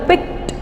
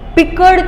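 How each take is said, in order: First: The ending is said with a t sound. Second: The ending is said with a d sound. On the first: The speaker calls it right. "પિક્ટ બોલાય છે, ટ થઈ થઈ જાય છે" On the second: The speaker calls it wrong. "પીકળ તો બોલાતું જ નથી"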